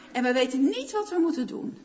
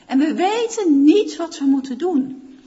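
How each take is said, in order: First: Said in the usual way. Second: Louder, leaning hard on "niet"; stress on niet. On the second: Shown as a demonstration. Pastor urging the church, "niet" hit loud and heavy. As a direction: push "niet" out like a confession of helplessness. Repeats prayer line with force.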